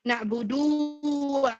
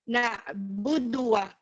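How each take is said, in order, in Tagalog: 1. Mahaba ang patinig sa 'du'. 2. Maikli ang patinig sa 'du'. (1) "No, this is wrong" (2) "that should be the correct way of reciting it"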